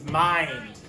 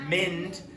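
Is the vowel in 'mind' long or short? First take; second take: long; short. First: The vowel is a long i sound. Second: The vowel is a short i sound. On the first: The speaker calls it right. "It's mind" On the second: The speaker calls it wrong. "It's not mm, ind, mind"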